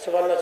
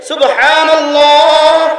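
First: It is said fast and rushed. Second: It is said slowly and carefully.

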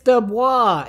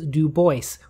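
First: Bois does not have the vowel of voice. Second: Bois has the vowel of voice. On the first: The speaker calls it wrong. "It is actually not DuBois" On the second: The speaker calls it right. "My name is pronounced in the clear English fashion"

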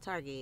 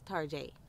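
First: The name is said in plain English style. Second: The name is said in a fancy French style. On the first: The speaker calls it wrong. "It's not Target" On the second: The speaker calls it right. "You gotta say fancy"

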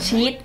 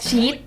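No difference in how they are said.

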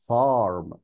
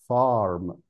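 Both takes have the same delivery.

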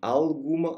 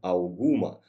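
First: The l is pronounced as a clear l. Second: The l is pronounced like a u. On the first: The speaker calls it wrong. "не alguma" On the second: The speaker calls it right. "а у. Ау"

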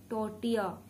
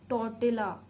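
Both takes have the same delivery.

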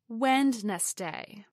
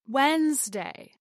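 First: The word is said with three syllables. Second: The word is said with two syllables. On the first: The speaker calls it wrong. "not Wednesday" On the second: The speaker calls it right. "as Wednesday"

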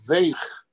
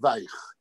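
First: It is said in the usual Yiddish pronunciation. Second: It is said with a Polish Yiddish pronunciation. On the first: "את המילה וייך, רך" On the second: "היידיש הפולנית שלו... הוא אמר וייך"

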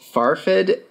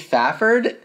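First: The name has an extra or misplaced r sound. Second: The name has no extra or misplaced r sound. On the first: "I think I was throwing in an extra R or moving it into the wrong spot the first time" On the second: "upon reflection, wrong. So maybe Fachrd?"

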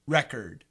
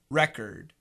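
First: The stress falls on the first syllable. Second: The stress falls on the first syllable.

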